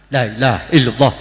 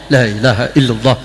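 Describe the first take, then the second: Both takes have the same delivery.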